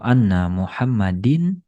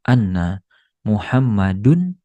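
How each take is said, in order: First: The name ends with -din. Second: The name ends with -dun.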